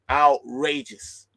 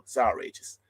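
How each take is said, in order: First: Outrageous said slowly and punched loud; drawn-out emphasis. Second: Said in the usual way. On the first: Real, not acted. Fuming to viewers, Outrageous dragged out slow and loud. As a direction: stretch Outrageous out slow and hard.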